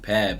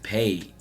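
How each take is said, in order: First: The vowel is short, as in cat. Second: The vowel is long, as in day. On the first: The speaker calls it wrong. "some people pronounce it pad" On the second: The speaker calls it right. "right now it's paid"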